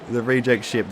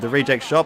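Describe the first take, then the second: First: "ship" said like ship with a short i; "reject ship" with a short i vowel; mispronounced word. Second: "shop" said with the open o of shop; "reject shop" with an open o vowel, rising; corrected word. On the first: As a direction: say "ship" with the i of sit. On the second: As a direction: say "shop" with the o of hot, asking. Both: Shown as a demonstration.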